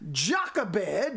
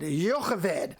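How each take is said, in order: First: The name starts with a J sound. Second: The name starts with a Y sound. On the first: "is the English pronunciation of it" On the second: "The Hebrew would be"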